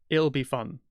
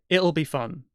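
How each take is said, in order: No difference in how they are said.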